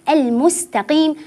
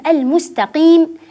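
Both takes have the same delivery.

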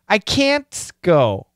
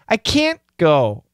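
First: The T in can't is fully released. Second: The T in can't is stopped, not released.

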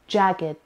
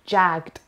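First: The word is said as two syllables, ending in a separate 'gid' sound. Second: The word is said as one syllable, ending in a plain 'gd' sound. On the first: The speaker calls it right. "It's jagged" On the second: The speaker calls it wrong. "It's not jagged"

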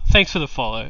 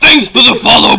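First: It is said in the speaker's normal voice. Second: It is said in a gruff put-on wrestler voice.

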